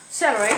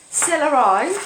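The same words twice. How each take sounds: First: Said in the usual way. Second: Celery with the ending said as "eye"; celery stretched into a comic "seller-eye"; playful mispronunciation. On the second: Pretend. Joke pronunciation, then says it normally.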